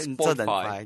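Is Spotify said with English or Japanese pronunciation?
Japanese. It is said with a Japanese-style pronunciation. "逆に日本語がいい"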